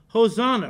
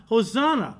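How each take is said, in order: No difference in how they are said.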